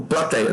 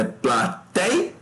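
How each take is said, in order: First: Said in the usual way. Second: Plateia slowly split pla-tei-a; syllable by syllable. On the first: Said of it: "Não, é plateia". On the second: Shown as a demonstration. Teacher checks for a triphthong, plateia slowly in syllables. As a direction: hold each syllable of plateia apart. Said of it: "como é que separa".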